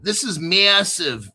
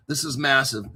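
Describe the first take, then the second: First: Slow, drawn-out New Jersey "massive"; New Jersey accent. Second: Said in the usual way. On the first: Pretend. Hyping the article to viewers, playful New Jersey accent. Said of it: "is that my New Jersey accent".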